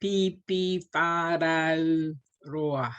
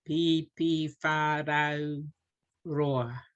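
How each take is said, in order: First: Pipi whārau roa, slow, every vowel full; deliberate teacher demo; each vowel given weight. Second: Pipi whārau said slow with every vowel full; each vowel given weight. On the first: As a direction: slowly give each vowel its mana. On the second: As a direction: repeat it slowly, vowel by vowel. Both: Shown as a demonstration. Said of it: "I'm emphasizing the mana of each vowel".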